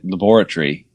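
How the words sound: It is said the British way.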